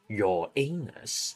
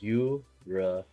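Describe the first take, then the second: First: It sounds like the phrase 'your anus'. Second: It does not sound like 'your anus'. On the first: The speaker calls it wrong. "No, just kidding. It's Uranus" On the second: The speaker calls it right. "pronounce it correctly. It's Uranus. Separate"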